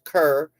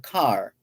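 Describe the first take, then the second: First: The vowel sounds like the one in 'her'. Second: The vowel sounds like the one in 'car'. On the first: "whether they pronounce it Kerr" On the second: "or Carr"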